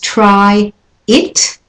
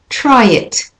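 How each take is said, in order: First: The two words are said separately. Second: The two words are linked together.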